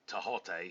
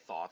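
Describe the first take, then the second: First: The name begins with a plain t sound. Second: The name begins with a th sound. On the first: The speaker calls it right. "I said Tahote because there's no th sound" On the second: The speaker calls it wrong. "I didn't say Thoth"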